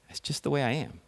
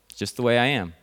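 First: It is said in a sad tone. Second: It is said in a resigned tone.

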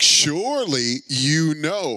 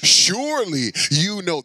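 First: It is said in a mocking, sarcastic tone. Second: It is read in a plain, neutral tone.

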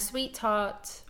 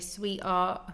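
First: A clear t sound is pronounced. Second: Neither the t nor the h is pronounced. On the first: "I'm saying it there with a true T" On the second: "they wouldn't pronounce the T or the H"

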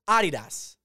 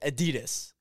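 First: It is said in a non-American way. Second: It is said the American way.

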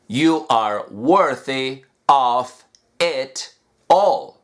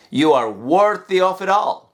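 First: It is said slowly with separate words. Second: It is said fast with linked words.

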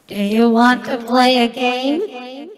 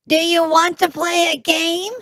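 First: It is said in the speaker's normal voice. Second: It is said in a put-on gnome voice.

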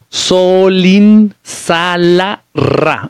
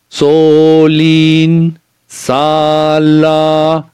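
First: The vowels are short and plain. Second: The vowels are drawn out long.

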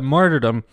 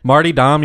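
First: It is said with an R before 'dom'. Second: It is said without an R before 'dom'. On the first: The speaker calls it right. "there is an R in there. Martyrdom" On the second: The speaker calls it wrong. "Marty Dom, you got your name if you guys start a podcast together"

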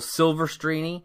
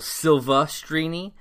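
First: The name begins with 'Silver', with an R sound. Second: The name begins with 'Silve', with no R sound. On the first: The speaker calls it wrong. "He called her Rachel Silvestrini" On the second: The speaker calls it right. "There's no R. It's not Silver"

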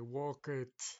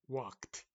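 First: The ending is said as an extra syllable. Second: The ending is a short t sound. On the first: The speaker calls it wrong. "no se dice walk it" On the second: The speaker calls it right. "suena una D seca, como una T"

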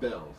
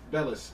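First: The name is said with one syllable. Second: The name is said with two syllables. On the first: The speaker calls it wrong. "not Bells" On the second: The speaker calls it right. "Bellis, not Bells"

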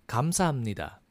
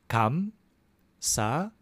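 First: It is said faster. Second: It is said slowly.

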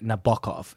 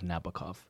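First: The name is said in a Russian-style way. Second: The name is said in an anglicized way. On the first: The speaker studied Russian literature. "and I say Nabokov" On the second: This is the usual English pronunciation. "instead of Nabokov"

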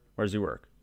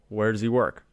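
First: It is said somewhat forcefully. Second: It is said more forcefully.

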